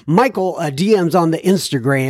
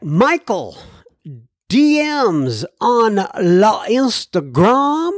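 First: Said in the usual way. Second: Put-on slow, higher playful French accent on La Instagram; mock French accent. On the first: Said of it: "where did I come up with this French accent thing". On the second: Host reading listener mail, in a mock French accent. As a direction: ham up a French accent for the host's Instagram shoutout. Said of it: "this French accent thing".

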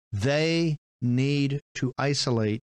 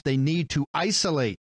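First: "They need to isolate" drawn out very slowly, each word weighted; slow emphatic repeat. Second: Said in the usual way. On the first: Shown as a demonstration. Host repeating the Journal's line slowly to hammer it home.

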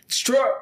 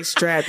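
First: "strap" said with a playful rising lilt; "strap" tossed up like a question, cut short; special way of saying strap. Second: Said in the usual way. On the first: Shown as a demonstration. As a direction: give "strap" a stylized lift, its ending swallowed. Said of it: "You have to say strap". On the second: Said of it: "You gotta say it like that".

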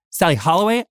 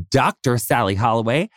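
First: Said in the usual way. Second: Doctor leaned on as a title; emphatic "Doctor" before the name; stress on Doctor. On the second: Real, not acted. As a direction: restate the name, honoring the word Doctor. Host restates name stressing the title.

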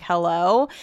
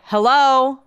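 First: Low, questioning retold hello; puzzled phone greeting. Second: Louder, more insistent hello; imitated caller. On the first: Retelling answering her watch, tentative questioning hello. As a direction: answer an unknown call tentatively. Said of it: "And so I'm like". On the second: Stranger answering back on the call, imitated insistent hello. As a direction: throw back the greeting as the caller. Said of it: "And they're like".

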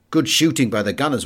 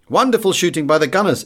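First: Said in the usual way. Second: Higher and louder, a proud cheer; excited exclaim. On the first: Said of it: "in his broken English". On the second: A narrator's reading. Maltese café crowd cheers their gunners, proudly exclaiming. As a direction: cry it out as a whole table agreeing. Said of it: "exclaimed a chorus".

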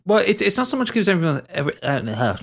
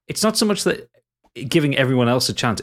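First: Slurred by loose false teeth; mumbling round slipping dentures. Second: Said in the usual way. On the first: Real, not acted. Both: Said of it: "I'll put my teeth back in".

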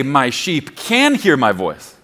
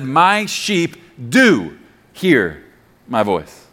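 First: "can" leaned on as the doubtful word; single out "can" with a strong accent; stress on can. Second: "do" drawn out slowly and set apart; slow, emphatic "do" as the key word; stress on do. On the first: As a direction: put the weight on "can", then drop away. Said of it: "Jesus did not say". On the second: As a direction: stretch "do", then pause before finishing low. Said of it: "There's an implied do here". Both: Shown as a demonstration.

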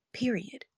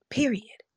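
First: Whispered period. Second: Period said firmly with a falling tune; emphatic period. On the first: Quoting her cousin, whispering the final word. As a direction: hush it like a secret. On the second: Quoting her cousin, stressing the last word. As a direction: land it like a final verdict. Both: Retold or imitated. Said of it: "and I will never forget this".

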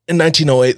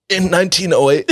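First: Said in the usual way. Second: Coughing, voice strained and high; coughing through it. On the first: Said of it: "plain restart after coughing". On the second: Real, not acted. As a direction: push the words out between coughs. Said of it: "it instantly burned my nose".

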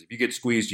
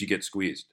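First: Said in the usual way. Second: "you get squeezed" dropped much softer and lower, like a shrug; a trader's resigned last word on a squeeze, said much softer; soft, final landing. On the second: Shown as a demonstration. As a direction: let "squeezed" fall away quietly as a verdict.

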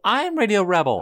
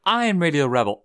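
First: Very high, louder climactic cry; mock crowd shout. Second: Higher, louder chanted line; chanting crowd. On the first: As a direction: top the chant with a high cry. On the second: Retold or imitated. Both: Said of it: "everybody starts saying".

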